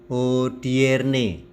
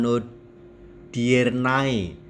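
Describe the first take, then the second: First: The word ends in a plain e vowel. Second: The word ends in an ai diphthong. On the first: The speaker calls it right. "kata A E yang kita baca E" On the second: The speaker calls it wrong. "bukan hodiernae"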